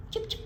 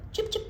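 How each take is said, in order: Both takes have the same delivery.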